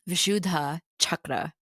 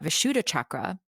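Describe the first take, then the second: First: The dh sound has breath after it. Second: The dh sound has no breath after it. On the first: The speaker calls it right. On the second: The speaker calls it wrong.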